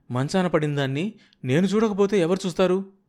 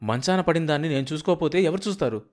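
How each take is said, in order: First: Repeated line pitched much higher; higher drawn-out repeat. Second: Said in the usual way. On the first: Acted. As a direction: say it again higher, stretching it out. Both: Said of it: "సాగదీస్తూ అంది".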